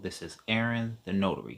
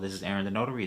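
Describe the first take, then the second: First: It is said slowly with each word clearly separated. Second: It is said quickly with the words blended together. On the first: The speaker calls it right. "I say it slow like that and enunciate the letters" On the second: The speaker calls it wrong. "Don't blend them together"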